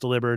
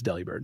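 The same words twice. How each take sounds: First: The name is said to sound like 'delivered'. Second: The name is said as 'deli' plus 'bird'. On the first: The speaker calls it wrong. "it is not pronounced Delibird ... because it's like delivered" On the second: The speaker calls it right. "It's Delibird"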